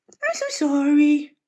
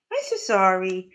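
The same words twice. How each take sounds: First: High, slow cooing sorry; pet-voice sorry. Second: Said in the usual way. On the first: Real, not acted. Apologising to the cat in high, slow baby talk.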